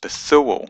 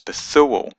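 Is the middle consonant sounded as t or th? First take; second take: th; th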